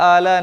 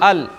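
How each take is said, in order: First: The vowel is drawn out long. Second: The vowel is kept short. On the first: The speaker calls it wrong. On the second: The speaker calls it right.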